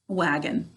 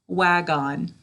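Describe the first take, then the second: First: The second syllable is weak and reduced. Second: The second syllable is said clearly as on. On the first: This is how the word is normally said. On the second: This is how the word is said to spell it.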